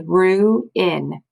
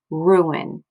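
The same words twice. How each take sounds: First: "ruin" as slow "roo", then "in"; "ruin" sounded out slowly, both parts stretched; split into syllables. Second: Said in the usual way. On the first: Shown as a demonstration. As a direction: break "ruin" into two separate syllables. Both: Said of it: "split them apart".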